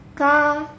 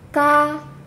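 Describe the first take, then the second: First: The k is followed by a light breathy puff. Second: The k is followed by a light breathy puff.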